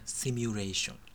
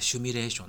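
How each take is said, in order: First: The word begins with the sound 'shi'. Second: The word begins with the sound 'shu'. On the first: The speaker calls it right. "本当はシミュレーションです。" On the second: The speaker calls it wrong. "なんか思わず言っちゃいますよね"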